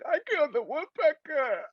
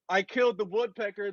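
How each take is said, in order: First: It is said tearfully, as if sobbing. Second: It is said excitedly, with pride.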